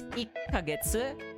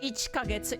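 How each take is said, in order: First: A held, doubled k sound replaces 'chi'. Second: A full 'chi' syllable comes before 'kagetsu'. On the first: The speaker calls it right. "notice like the you know the small tsu" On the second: The speaker calls it wrong. "instead of"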